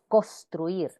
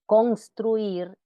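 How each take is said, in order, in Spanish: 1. La n antes de la s se pierde. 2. La n antes de la s se pronuncia claramente. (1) "y no" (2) "se recomienda pronunciar"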